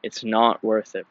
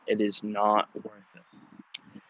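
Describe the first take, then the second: First: Said in the usual way. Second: It is not worth it, slow and soft, leaning on not; slow, quiet, weighted not; emphatic repeat. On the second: Real, not acted. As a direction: drive the point home slowly. Moral of the story, repeated.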